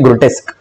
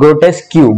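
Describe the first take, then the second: First: The word ends with a plain 'k' sound. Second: The word ends with an extra 'kyoo' sound. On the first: The speaker calls it right. "इसकी pronunciation होती है ग्रोटेस्क" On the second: The speaker calls it wrong. "कुछ बच्चे इसको pronounce करते हैं कैसे"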